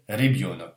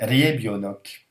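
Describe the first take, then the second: First: The first vowel sounds almost like 'i'. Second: The first vowel sounds like a full 'ye'. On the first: The speaker calls it right. "C'est presque un i" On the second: The speaker calls it wrong. "normalement on dirait ça Rebionok"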